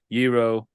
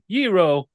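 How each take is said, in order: First: It is said in an unhappy tone. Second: It is said in a happy tone.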